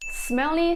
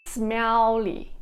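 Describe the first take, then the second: First: Said in the usual way. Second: "smelly" with a held double L, "smel-li"; singlish. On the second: Shown as a demonstration. Singlish take of the word.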